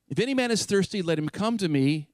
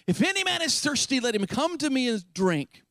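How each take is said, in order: First: Said in the usual way. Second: Calling out high across a crowd, slowed; cried out loud. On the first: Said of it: "He didn't say". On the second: Acted. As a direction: pitch it high and call it out to the crowd. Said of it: "cried out in a loud voice".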